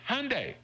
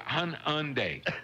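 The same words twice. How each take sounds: First: It is said with two syllables. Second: It is said with three syllables. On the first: The speaker calls it right. "it's really just Hyundai" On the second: The speaker calls it wrong. "make it three syllables and say Hyundai"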